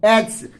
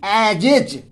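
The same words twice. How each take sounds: First: एज as one syllable with an s ending; wrong short reading. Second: एजेज as "e-jej", closing on a voiced j; two-syllable j ending. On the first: Teacher rejects this reading, एज in one syllable. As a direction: say एज as "es", one beat only. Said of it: "not एज". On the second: Teacher insists on the only reading, एजेज with a final j. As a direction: say एजेज in two beats, j in both. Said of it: "only एजेज". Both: Shown as a demonstration.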